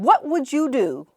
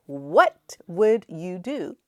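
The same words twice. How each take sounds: First: Said in the usual way. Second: Drawn-out, softer asking; slow, hushed repeat. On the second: Shown as a demonstration. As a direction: let it hang slowly. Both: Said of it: "can you imagine".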